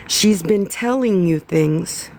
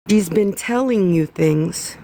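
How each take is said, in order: First: Slow, stress on "telling"; "telling" weighted and stretched, said slowly; slow emphatic. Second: "She's" stressed, the rest run on. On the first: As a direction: lean hard on "telling", drawn out. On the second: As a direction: punch "She's" at the start. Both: Real, not acted.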